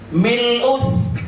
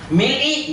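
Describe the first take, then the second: First: The word ends with an u vowel. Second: The word ends with an i vowel. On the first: The speaker calls it right. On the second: The speaker calls it wrong. "nggak bisa"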